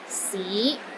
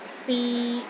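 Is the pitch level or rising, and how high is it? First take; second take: mid rising; mid level. First: The pitch rises from low to middle. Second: The pitch stays steady in the middle. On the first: It means city. "It starts low then rises to the middle of your range" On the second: It means to try. "in the middle of your range and it is steady"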